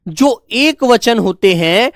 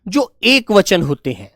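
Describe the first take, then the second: First: Measured, each word drawn out; slow repetition. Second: Said in the usual way. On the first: Shown as a demonstration. Teacher restating the rule for pupils, slow and measured. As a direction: repeat it slowly so pupils keep up. Teacher repeats slowly for class.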